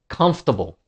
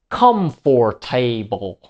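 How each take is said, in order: First: The unstressed syllables are shortened and reduced. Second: Every syllable is said fully with equal weight. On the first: The speaker calls it right. "the natural comfortable" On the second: The speaker calls it wrong. "pronounced every syllable equally"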